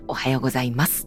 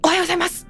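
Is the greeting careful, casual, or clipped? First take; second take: careful; clipped. First: It is said carefully, each part placed deliberately. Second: It is said tensely, with a clipped abrupt ending.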